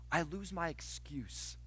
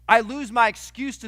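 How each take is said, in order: First: Slow, soft confession; quiet admission. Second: Suddenly louder, driving it home; loud emphasis. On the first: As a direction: let it sink in quietly. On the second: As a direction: punch it out to the congregation. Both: Shown as a demonstration. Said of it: "do you know what you lose?".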